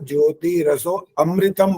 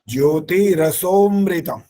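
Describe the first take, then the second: First: Raso and amritam are said as separate words. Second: Raso and amritam merge into one word, rasomritam. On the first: The speaker calls it wrong. "अमृतम नहीं बोल सकते यहाँ" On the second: The speaker calls it right. "ऐसा बोलना होता है"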